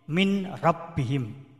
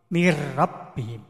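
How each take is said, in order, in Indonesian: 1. Bunyi n dibaca jelas sebelum r. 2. Bunyi n melebur menjadi bunyi r ganda. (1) "Kemudian min robihim" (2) "membaca mir rabbihim"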